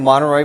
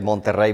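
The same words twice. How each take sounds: First: The name is said with English-style sounds. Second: The name is said with Spanish-style sounds.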